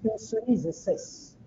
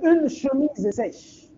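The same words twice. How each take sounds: First: Chemise begins with an 's' sound. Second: Chemise begins with a 'sh' sound. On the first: The speaker calls it wrong. "d'autres disent" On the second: The speaker calls it right. "au lieu de dire"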